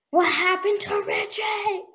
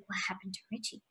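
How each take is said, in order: First: High, drawn-out mock cry; hammed-up, slow high plea; exaggerated suspense. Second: Very soft, low aside; small, hushed retold question; hushed suspense. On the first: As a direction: wail the question as if desperate to know. Retold suspense, second take exaggerated. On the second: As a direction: ask it under your breath, on edge. Retold suspense, first take hushed.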